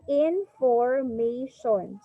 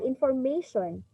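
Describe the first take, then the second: First: "information" very slowly, syllable by syllable; slow teacher's count through each syllable of "information"; chopped into syllables. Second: Said in the usual way. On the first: Shown as a demonstration. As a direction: break "information" into in, for, ma, tion. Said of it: "you have to chop". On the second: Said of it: "just usual".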